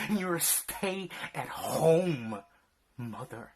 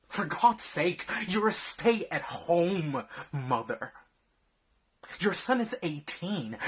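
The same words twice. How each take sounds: First: "stay-at-home" drawn out slowly, falling on "mother"; slow emphatic repeat. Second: Loud angry rebuke; angry shouting. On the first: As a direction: spell it out slowly with contempt. Repeating the accusation. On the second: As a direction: yell it at her in disgust. Berating wife for slacking. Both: Acted.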